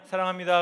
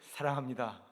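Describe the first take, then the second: First: It is said flatly, without feeling. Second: It is said warmly, with strong feeling. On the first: The words leave the listener unmoved. The speaker calls it wrong. "그냥 사랑합니다" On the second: The listener truly feels loved. The speaker calls it right. "감정을 사랑합니다"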